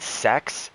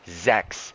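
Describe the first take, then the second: First: The word sounds like English sex. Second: The word has a German pronunciation. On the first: The speaker calls it wrong. "instead of saying sechs, I said sex" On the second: The speaker calls it right. "The number six is pronounced sechs"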